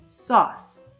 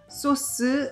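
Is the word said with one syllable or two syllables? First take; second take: one; two. First: The word is said in one syllable. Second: The word is said in two syllables. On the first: The speaker calls it right. "한 음절로 sauce" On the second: The speaker calls it wrong. "소스 이렇게 이음절이 아니고요"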